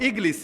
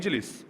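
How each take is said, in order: First: The middle consonant is a hard g sound. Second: The middle consonant is a j sound. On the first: "ওরা বলে ইগলিস, মানে জিমটারে গাইন বানায় ফেলে" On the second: "আমরা আরবিতে বলবো ইজলিস"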